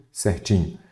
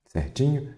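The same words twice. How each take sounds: First: "Certinho" falling as a statement; "Certinho" dropping in pitch to confirm; confirming answer. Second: "Certinho" rising as a question; "Certinho" higher and softer, rising to a question; questioning check. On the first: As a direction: settle "Certinho" with a falling close. Teacher answers own check. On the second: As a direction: ask "Certinho" softly, pitch lifting at the end. Teacher checks, then confirms. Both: Real, not acted.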